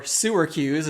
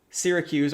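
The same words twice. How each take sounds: First: Sewercuse, the first syllable said like sewer; mock Kiwi Syracuse. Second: Said in the usual way. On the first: Shown as a demonstration. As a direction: Sewercuse as a New Zealander might say it. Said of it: "as they are now known". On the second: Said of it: "or Sewercuse".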